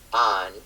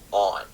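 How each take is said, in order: First: The vowel sounds like the one in 'Tom'. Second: The vowel sounds like the one in 'thought'. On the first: This is how northern Midwest speakers say it. "north of the line, we say on ... rhymes with Tom" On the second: This is how southern Midwest speakers say it. "sounds more like the vowel sound in ... thought"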